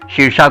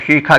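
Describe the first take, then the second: First: The middle consonant is a retroflex sh sound. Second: The middle consonant is a kh sound. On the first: "मूर्धन्य शाह" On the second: "उत्तर भारत में खा करके भी कहा जाता है"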